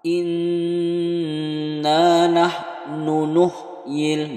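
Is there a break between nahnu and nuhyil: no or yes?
no. Nahnu and nuhyil are joined without any break. The speaker calls it right. "Jadi harus sam sambung"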